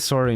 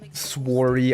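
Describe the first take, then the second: First: The word is said in a plain, ordinary way. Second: The word is said in an exaggerated, mocked way. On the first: The speaker says this is how they really talk. The speaker calls it right. "I say sorry normally" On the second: Others claim the speaker talks this way. The speaker calls it wrong. "I do not say sworry like that"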